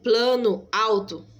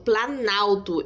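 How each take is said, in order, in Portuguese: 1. Duas palavras separadas, cada uma mantendo os próprios sons. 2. Uma palavra fundida, as duas vogais unidas em uma só. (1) "Mas eu falo assim, plano alto. Não" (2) "eu falo planalto"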